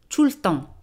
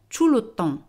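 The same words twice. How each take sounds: First: The e in 'le' is dropped. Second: The e in 'le' is pronounced.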